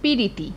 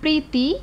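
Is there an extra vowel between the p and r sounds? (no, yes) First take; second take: yes; no. First: A vowel is inserted between p and r. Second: The p and r form one cluster.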